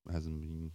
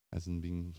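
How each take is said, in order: Both takes have the same delivery.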